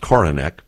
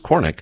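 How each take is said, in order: First: The name is said with three syllables. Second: The name is said with two syllables. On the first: The family's own version of the name. "I use three syllables" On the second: Other people's version, which sounds Irish. "they just pronounce the two syllables"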